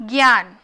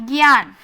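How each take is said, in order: Both takes have the same delivery.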